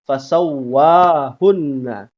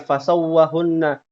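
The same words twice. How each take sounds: First: The 'wa' vowel is held long. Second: The 'wa' vowel is held short. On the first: The speaker calls it right. "wa itu dua harokat" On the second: The speaker calls it wrong. "Bukan fasawwahunna"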